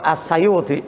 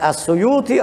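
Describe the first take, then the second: First: The vowel after the first S sounds like 'a'. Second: The vowel after the first S sounds like 'u'. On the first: "atau As-Sayuti" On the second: "Boleh dibaca As-Suyuti"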